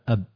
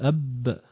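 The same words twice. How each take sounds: First: The final consonant is light and not doubled. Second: The final consonant is pressed hard and doubled. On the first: The speaker calls it right. "لا أب" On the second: The speaker calls it wrong. "ولا تشد، ما تقول أب"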